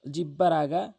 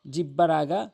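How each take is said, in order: Both takes have the same delivery.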